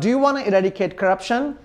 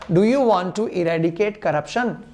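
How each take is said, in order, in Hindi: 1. 'Want to' को तेज़ी से मिलाकर 'wanna' बोला जाता है। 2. 'Want to' को दो पूरे शब्दों की तरह बोला जाता है।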